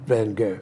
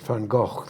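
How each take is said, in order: First: The name is said with English sounds. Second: The name is said with Dutch sounds. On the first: The speaker calls it wrong. "not Van Gogh" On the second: The speaker calls it right. "the Dutch way that he would have pronounced it"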